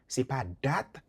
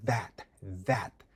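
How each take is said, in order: First: "that" said with a d; "that" as "dat"; wrong way. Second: "that" with tongue between teeth, voiced th; "that" not "dat"; right way. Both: Shown as a demonstration.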